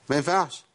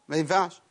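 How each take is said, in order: The two takes are said the same way.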